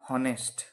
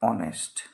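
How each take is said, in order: First: The word begins with an h sound. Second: The word begins with a vowel sound. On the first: The speaker calls it wrong. "এইচ থাকলে তার উচ্চারণ হওয়ার কথা ছিল হ" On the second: The speaker calls it right. "প্রকৃতপক্ষে এর উচ্চারণটা হচ্ছে অনেস্ট"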